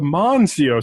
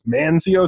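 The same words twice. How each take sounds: First: The first syllable sounds like 'mon'. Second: The first syllable sounds like 'man'. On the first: The speaker calls it right. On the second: The speaker calls it wrong.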